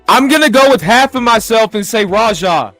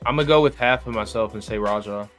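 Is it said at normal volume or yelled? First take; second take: yelled; normal. First: It is yelled very loudly. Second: It is said at normal volume.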